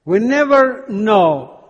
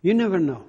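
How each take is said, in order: First: "never" drawn out and stressed, slow and louder; slow emphatic preaching. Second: Said in the usual way. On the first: Shown as a demonstration. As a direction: lean on "never" and let it fall slowly. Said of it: "preacher drives home the point". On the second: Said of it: "repeats the point in passing".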